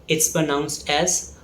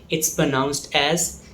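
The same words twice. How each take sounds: The two takes are said the same way.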